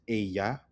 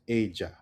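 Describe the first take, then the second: First: The ll is pronounced like a plain Y sound. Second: The ll is pronounced like a soft J sound. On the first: "The textbook version is ella" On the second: "Colombian version becomes ella"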